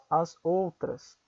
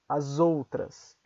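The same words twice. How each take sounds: First: The s sounds like s, words kept apart. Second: The s sounds like z, linked to outras. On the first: "o S não se pronuncia como S? Sim, se vocês falam as outras" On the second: "numa conversa cotidiana, é muito mais comum que vocês ouçam"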